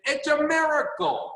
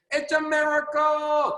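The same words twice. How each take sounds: First: Lightly voiced mentor, pitch lifted high on miracle; a hint of Jim Rohn marvelling; Jim Rohn's way of saying it. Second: Slow, high, marvelling mentor voice; Jim Rohn's delivery. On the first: Quoting his mentor Jim Rohn to a Zoom team, lightly imitating his wonder. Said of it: "That's how he would talk". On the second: Retold or imitated. Imitating Jim Rohn for the Zoom team, slow and marvelling. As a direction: draw it out like an amazed old mentor. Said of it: "That's how Mister Jim Rohn used to talk".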